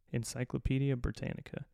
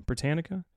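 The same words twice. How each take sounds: First: Said in the usual way. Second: Britannica? tried out with a questioning rise; trying the word. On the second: Shown as a demonstration. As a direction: test Britannica? as a careful rising question. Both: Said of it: "I almost couldn't say Britannica".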